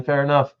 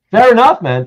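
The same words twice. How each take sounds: First: Said in the usual way. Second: Chuckling as the words come out, higher and louder; host laughing off a guest's refusal to choose. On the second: Real, not acted.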